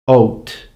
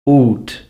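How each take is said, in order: First: The vowel is pronounced as in the 1600s. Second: The vowel is pronounced as in the 1400s. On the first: "sixteen hundreds" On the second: "the way they would be pronounced in the fourteen hundreds"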